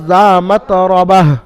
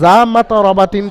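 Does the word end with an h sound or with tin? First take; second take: h; tin. First: The word ends with a soft h sound. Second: The word ends with a nasal tin sound. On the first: The reading stops at the end of the verse. "যখন থামবেন তখন এটা হা সাকিন করে পড়তে হবে" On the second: The reading continues without a stop. "এটা মাতরাবাতিন ছিল"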